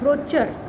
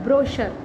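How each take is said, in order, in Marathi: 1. मधला व्यंजन 'ch' आवाजाचा आहे. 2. मधला व्यंजन 'sh' आवाजाचा आहे. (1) "wrongly pronounce it as brochure" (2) "but it is brochure"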